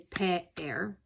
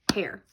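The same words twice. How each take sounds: First: The word is broken into two syllables. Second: The word is said as one smooth syllable. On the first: The speaker calls it wrong. "We don't say pair" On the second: The speaker calls it right. "One syllable, one sound all together"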